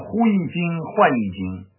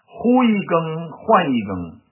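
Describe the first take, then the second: First: The repeated syllable is pronounced jing. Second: The repeated syllable is pronounced geng.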